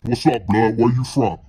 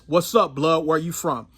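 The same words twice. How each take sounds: First: It is said in a deep, masculine voice. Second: It is said in his normal voice.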